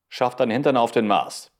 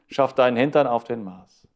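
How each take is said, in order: First: It is said at full, steady volume. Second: It is said quieter, fading out.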